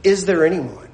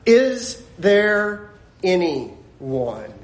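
First: Said in the usual way. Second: "Is there anyone" very slow, each word separated; word-by-word emphasis. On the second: Acted. Preacher hammering home "Is there anyone", slow word-by-word stress. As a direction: stretch out "Is there anyone" with weighty pauses. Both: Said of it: "He just said".

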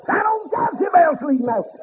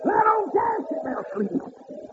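First: High ringing preacher's cry; preaching at full force. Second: High ringing repeat. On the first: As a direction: lift it up and ring it out to the congregation. Preacher whooping, repeated line. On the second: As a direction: pitch it up and ease off the volume. Repeat, higher and softer. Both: Acted.

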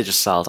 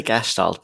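First: "Gestalt" starting with a J sound, plain S; soft-g pronunciation. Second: "Gestalt" with hard G and SH before the T; hard-g pronunciation. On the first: Therapist showing host how some people say it, "Gestalt" with soft G. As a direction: say "Gestalt" with a soft G, like "juh-STALT". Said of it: "Some say Gestalt". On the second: Therapist giving host own version, "Gestalt" with hard G and SH. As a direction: say "Gestalt" with a hard G, like "gesh-TALT". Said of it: "I say Gestalt". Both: Shown as a demonstration.

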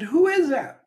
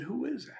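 First: High, loud call across the valley; little boy calling out, high and loud. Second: Higher, soft distant echo; faint echo. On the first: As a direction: shout it across to the far side. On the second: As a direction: let it come back faint from far off. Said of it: "And a voice said". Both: Retold or imitated.

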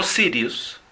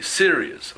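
First: "serious" with a tapped Spanish R, like "sirius". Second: "serious" with an untrilled English R. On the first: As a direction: mispronounce "serious" as a Spanish speaker would, tapping the R. (erre española en "serious", con golpe de lengua) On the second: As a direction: model "serious" the English way, R without a tap. (erre inglesa en "serious", sin golpe de lengua) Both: Shown as a demonstration. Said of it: "No serious".

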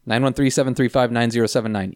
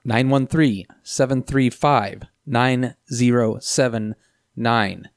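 First: Said in the usual way. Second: Spelling out each number slowly; slow dictation. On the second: Shown as a demonstration. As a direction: read the digits slowly for callers to note. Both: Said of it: "repeated number".

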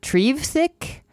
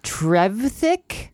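First: Trevthick said "TREEV-thick" with a long ee; higher, rising Trevthick, first vowel as in "tree"; alternative pronunciation. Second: Trevthick said slowly with a short e; slow, rising Trevthick with short-e first syllable; drawn-out name. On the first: Tries another reading of the name. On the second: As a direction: sound out Trevthick, questioning, TREV as in "ever". Puzzling over a name's pronunciation. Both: Shown as a demonstration.

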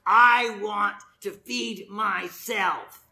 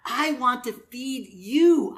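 First: Drawn-out, slow selfish declaration; mock selfishness. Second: Slow, earnest offer with weight on YOU; selfless love. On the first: Preacher voicing selfish behavior to the congregation, mock selfish. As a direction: act out self-centred greed, very slowly. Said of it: "All of those are selfish behaviors". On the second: Acted. Preacher voicing the opposite of selfishness, loving and earnest. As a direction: stretch it out, giving to the other person. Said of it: "The opposite of that is love".

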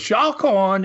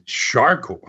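First: High Aussie warning, R dropped in "Shark"; imitated Aussie accent. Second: Said in the usual way. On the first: Aussie surfer's third warning to a swimmer, imitated Aussie accent. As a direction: call "Shark on" higher, as "Shahk on". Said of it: "that accent". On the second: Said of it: "I said".

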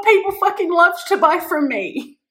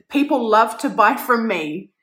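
First: Much higher and louder, fired up; all-in hyped affirmation; excited declaration. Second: Said in the usual way. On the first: Shown as a demonstration. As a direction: shout "People fucking love to buy from me" like a battle cry. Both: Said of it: "I was saying this before".

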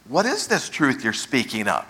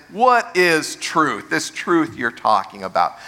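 First: Lower, honest question; genuinely inquiring, understated; sincere inquiry. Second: Scornful rhetorical question; cynical, insincere question. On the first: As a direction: ask it as if you truly want to know. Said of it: "not a sincere inquiry? He's not saying". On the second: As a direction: toss it off as if no answer exists. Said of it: "the tone is". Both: Shown as a demonstration.

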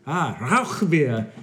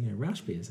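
First: "Rauch" said the German way, "rowkh" with a throaty ch, slow, higher and louder; the brewer corrects him with a drawn-out guttural "Rauch"; hammed-up German "Rauch", rolling "ow" into a rasping kh. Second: "Rauch" said English-style, rhyming with "brash"; tourist's "Rauch", English vowel with a soft sh ending; anglicized Rauch. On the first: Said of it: "He looks and he says". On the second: Retold or imitated. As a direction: say "Rauch" flat and English, like "rash" with a short a. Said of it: "he just looked at me with this puzzled look".

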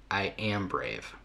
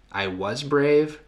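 First: "I am brave" slow and falling to a soft close; slow, quieter, conclusive second half of an affirmation; settled affirmation. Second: "I was brave" slow, high and lifted at the end; slow, higher first half of an affirmation; rising affirmation. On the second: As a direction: draw out "I was brave" on a raised pitch, left open. First of two contrasting affirmation phrases. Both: Shown as a demonstration.

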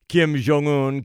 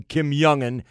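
First: Jong-un begun with "zh", as "zhong-oon". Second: Jong-un begun with Y, as "yung-un"; Y pronunciation. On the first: Host naming the leader, Jong-un as "zhong-oon". Gives name in two pronunciations. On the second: Host correcting the leader's name, Jong-un as "yung-un". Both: Shown as a demonstration.

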